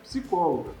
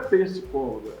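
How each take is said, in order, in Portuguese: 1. Não há som de vogal depois do P. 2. Um som de vogal é acrescentado depois do P. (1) "é psicóloga. O P é mudo" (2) "não é psicóloga"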